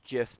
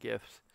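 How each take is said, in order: First: It begins with a soft j sound. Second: It begins with a hard g sound. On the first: This is how the creator said it. The speaker calls it wrong. "that just makes you think of peanut butter" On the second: This is how the speaker has always said it. The speaker calls it right. "I'm just gonna call them gifts. That's how I've always pronounced it"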